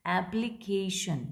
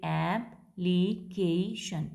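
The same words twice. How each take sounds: First: Said in the usual way. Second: "एप्लीकेशन" as four slow, separate syllables: ऐप-ली-के-शन; split into syllables. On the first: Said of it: "next है four syllabic". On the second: Shown as a demonstration. Teacher demonstrating four syllables, "एप्लीकेशन" slowly broken up. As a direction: break "एप्लीकेशन" slowly after each syllable. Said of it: "चार syllables हो जाएंगे".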